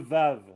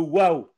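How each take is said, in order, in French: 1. Le mot commence par un son V. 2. Le mot commence par un son W.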